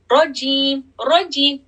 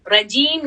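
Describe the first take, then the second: First: रजीम with a flat tongue; wrong flat ra. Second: रजीम with the tongue lifted for a heavy ra. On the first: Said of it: "रजीम नहीं पढ़ेंगे हम". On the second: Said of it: "जबान को थोड़ा सा lift करेंगे ऊपर". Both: Shown as a demonstration.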